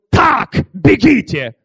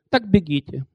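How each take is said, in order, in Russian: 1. Ударение падает на слово так. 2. Ударение падает на слово бегите. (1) "Нет, он говорил" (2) "У нас ударение не там ставили"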